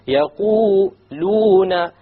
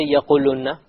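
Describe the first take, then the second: First: The long vowels are held for moderate length. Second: The long vowels are clipped short. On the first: The speaker calls it right. "It has to be two harakas" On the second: The speaker calls it wrong. "You don't say يَقُولُونَ. You have to make it long"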